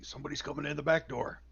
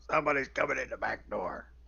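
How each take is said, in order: First: It is said in a plain, natural voice. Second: It is said in a put-on character voice.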